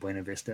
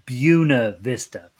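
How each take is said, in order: First: The name is pronounced differently from the local way. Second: The name is pronounced the local Colorado way. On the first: "I always call it Buena Vista" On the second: "In Colorado, they pronounce Buena Vista Buena Vista"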